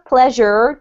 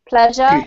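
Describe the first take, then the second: First: It ends with a clear R sound. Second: It ends in a vowel with no R sound. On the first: "from the U S A or you want to imitate that accent" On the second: "in the U K ... pronounced as if they had a sort of an A sound on the end"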